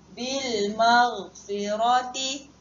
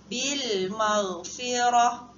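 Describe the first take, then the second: First: The last word ends with a t sound and vowel. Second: The last word ends with an h sound. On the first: The reading continues without stopping. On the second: The reader stops at this word.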